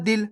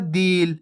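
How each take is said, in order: First: दिल with a brief, short i; quick short vowel. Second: दिल pulled out into a long ee; drawn-out vowel. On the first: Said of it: "जल्दी से हो रहा है". (दिल को जल्दी से, छोटी इ के साथ) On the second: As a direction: linger on the vowel of दिल, like deel. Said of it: "खींच के हो रहा है". (दिल को खींच के, लंबी ई के साथ) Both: Shown as a demonstration.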